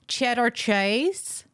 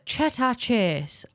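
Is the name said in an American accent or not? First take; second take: American; not American. First: The name is said in an American accent. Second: The name is said without an American accent.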